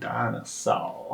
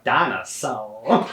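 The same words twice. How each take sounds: First: Put-on southern accent. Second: Slow drawn-out southern "Dinosaur"; southern accent. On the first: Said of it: "emphasizes it so much". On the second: Retold or imitated. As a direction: drawl it like a Southern cartoon narrator. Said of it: "southern accent".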